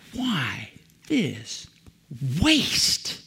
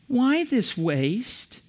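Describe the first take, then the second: First: It is said in an angry, indignant tone. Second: It is said in a mild, calm tone. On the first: An outraged complaint. "Indignant people say" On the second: A simple, neutral question. "So indignant people don't say"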